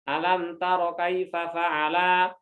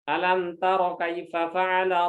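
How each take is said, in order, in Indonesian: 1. Vokal pendek dibaca panjang. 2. Vokal tetap dibaca pendek seperti biasa.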